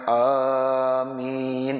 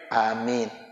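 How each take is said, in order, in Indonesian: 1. Vokal pertama dipanjangkan. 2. Vokal pertama tetap pendek. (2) "Ya yang pendek"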